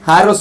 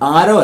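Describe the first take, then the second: First: The word begins with a clear h sound. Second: The word begins directly with a vowel. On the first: The speaker calls it right. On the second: The speaker calls it wrong.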